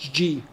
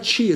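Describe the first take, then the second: First: The word begins with a 'j' sound. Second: The word begins with a 'ch' sound. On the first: The speaker calls it right. "it's Ji" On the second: The speaker calls it wrong. "it's not Chi"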